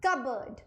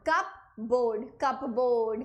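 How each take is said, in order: First: Cupboard said as one word, kuh-berd, with a silent p; correct pronunciation. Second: कप बोर्ड said as two words, cup then board, the p fully pronounced; spelling-based mispronunciation. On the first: Teacher gives students the correct cupboard. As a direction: blend it into kuh-berd and drop the p. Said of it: "This is simply called cupboard". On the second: Teacher shows students the wrong reading of cupboard. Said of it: "क्या ये कप बोर्ड होता है? नहीं होता". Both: Shown as a demonstration.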